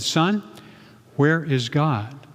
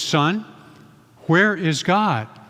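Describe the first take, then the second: First: It is said at a normal, quiet volume. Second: It is said with a raised, louder voice.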